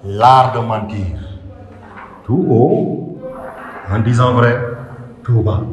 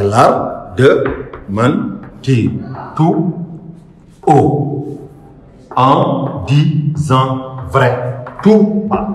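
First: Slow phrases, "L'art de mentir" arching up then falling; measured recitation, sinking low on "tout bas"; raised and lowered voice. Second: Very slow, each syllable held apart with pauses; spaced-out syllable count of a verse. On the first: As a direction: pause after "L'art de mentir", "Tout haut" and "en disant vrai". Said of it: "Pour faire la levée et la descente". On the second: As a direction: break the verse into separate, drawn-out syllables. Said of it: "il faut tout faire pour le décomposer". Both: Shown as a demonstration.

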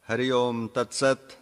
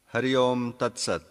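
The two takes are said the same way.

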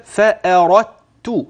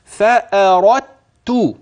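First: فأردت slow, ra running straight into ta with no dal; recited فأردت with merged dal; tajweed merging. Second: فأردت very slow, the dal merged straight into the ta; tajweed merging. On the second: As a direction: stretch فأردت, going from ra to ta with no dal heard. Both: Shown as a demonstration. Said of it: "تسمعها مني كده".

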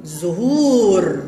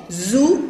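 First: "زهور" said as one slow word, zuhūūr; blended word. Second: "زهور" split as zu, pause, long hūūr; long vowel. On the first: Teacher blends the sounded-out word, slowly and whole. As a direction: join the syllables of زهور, ū still long. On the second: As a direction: hold the ū of زهور on a level note. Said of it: "إنها ضمة طويلة تكتب واو". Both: Shown as a demonstration.

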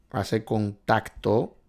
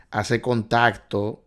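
No difference in how they are said.

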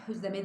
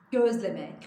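First: "közleme" with k in place of g; wrong pronunciation. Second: "gözleme" with a voiced g, louder; emphatic "gözleme", beginning on g; correct pronunciation. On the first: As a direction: harden the first sound of "közleme" to k. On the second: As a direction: hit the initial g of "gözleme". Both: Shown as a demonstration. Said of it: "közleme değil".

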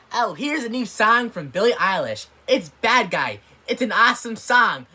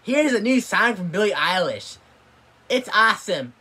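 First: Mock radio host. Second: Mock radio DJ. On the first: Mocks radio host announcing song. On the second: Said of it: "they think".

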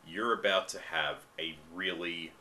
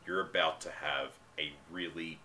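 Both takes have the same delivery.

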